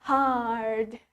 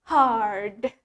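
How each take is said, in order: Both takes have the same delivery.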